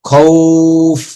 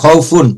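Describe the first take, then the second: First: The word stops short on the f sound. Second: The word ends with a full -un syllable. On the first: "যজম হয়ে গেছে" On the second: "ফা দুই পেশ ফুন"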